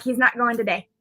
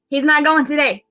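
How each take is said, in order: First: Said in the usual way. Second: Higher-pitched, emphatic declaration; retold insistence. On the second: Mother refusing to let her son go, retold insistence.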